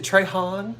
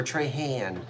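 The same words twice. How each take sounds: First: "Trehan" said as Tray-hahn, broad open a; "Trehan" with a long ah in the last syllable; one way of saying the name. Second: "Trehan" with a flat a as in hand, Tray-han; "Trehan" the South Jersey way, flat a; South Jersey vowel. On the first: Host asks viewers which way the name sounds, saying Tray-hahn. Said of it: "Is it Trehan or Trehan?". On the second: Host shows her South Jersey vowel on the name, Tray-han with a flat a. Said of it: "That's my South Jersey eh, vowel sound". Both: Shown as a demonstration.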